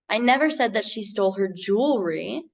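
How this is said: The word "jewelry" carries the stress. "put the emphasis on that last word in the sentence"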